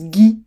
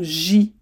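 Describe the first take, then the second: First: The first g is hard, like the g in go. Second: The first g is soft, like the s in measure. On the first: The speaker calls it right. "ça se prononce Guy" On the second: The speaker calls it wrong. "et non J"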